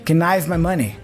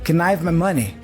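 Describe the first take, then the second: The two takes are said the same way.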